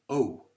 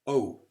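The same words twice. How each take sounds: First: The vowel glides into an oo sound. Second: The vowel glides into an oo sound.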